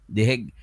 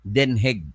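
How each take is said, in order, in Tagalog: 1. Ang pangalan ay nagsisimula sa tunog na 'the'. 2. Ang pangalan ay nagsisimula sa tunog na 'den'. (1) "hindi The Hague" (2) "ang pag-pronounce pala ng Den Hague"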